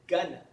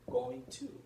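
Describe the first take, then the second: First: The words blend into one reduced word. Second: Both words are said fully and separately. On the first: "You pronounce it as gonna" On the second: "Sometimes they won't use the word going to"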